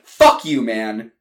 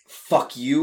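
First: "Fuck you" spat loud and falling; angry fuck you. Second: "fuck you" said light with a rising tune; mock fuck you. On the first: Acted. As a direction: throw "Fuck you" hard, falling at the end. Brothers' quarrel. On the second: Shown as a demonstration. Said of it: "Not in a "fuck you" way".

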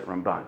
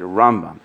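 First: Ramban said ram-BAN, last syllable stressed. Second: Rambam said RAM-bam, first syllable stressed. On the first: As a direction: lean on BAN in Ramban, keep ram light. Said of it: "the focus is on the left side". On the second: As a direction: lean on RAM in Rambam, let bam fall away. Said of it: "the focus is on the right side". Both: Shown as a demonstration.

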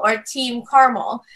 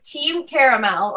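First: "Caramel" in two syllables, CAR-mul; contrasted pronunciation. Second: "Caramel" in three syllables, CARE-uh-mel; contrasted pronunciation. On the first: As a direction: drop the middle vowel in "Caramel". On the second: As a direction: keep the middle vowel in "Caramel". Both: Shown as a demonstration. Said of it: "like, with pronunciation".

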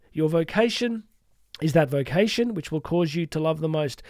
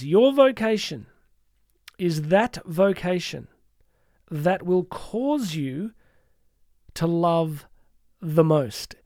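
First: Said in the usual way. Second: Very slow, phrase by phrase; measured reading with weighty pauses; slow, deliberate quote. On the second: Real, not acted. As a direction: let each phrase land, with long pauses. Quote read out deliberately, then repeated.

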